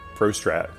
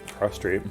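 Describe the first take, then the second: First: The second syllable has a short 'a' vowel. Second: The second syllable has a long 'ay' vowel. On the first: "could pronounce that word pro, prostrat" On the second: "pro Strat with an E"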